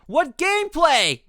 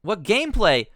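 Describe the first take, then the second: First: Higher, slow, incredulous; real exasperated streamer; drawn-out disbelief. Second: Said in the usual way. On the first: Real, not acted. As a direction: stretch it out in disbelief. Stunned at short demo.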